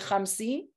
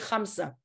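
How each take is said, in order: First: The final vowel is a raised 'ee' sound. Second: The final vowel is an open 'ah' sound. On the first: This is the Judeo-Arabic form. "In Judeo-Arabic, you say"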